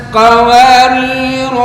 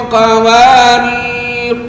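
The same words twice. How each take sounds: Both takes have the same delivery.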